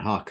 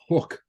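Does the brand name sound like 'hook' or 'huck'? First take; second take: huck; hook. First: The vowel sounds like the one in 'duck'. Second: The vowel sounds like the one in 'book'. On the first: This pronunciation follows the spelling of the name. "so I'm fucking saying Huck" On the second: This is the official pronunciation of the name. "Apparently it's pronounced hook"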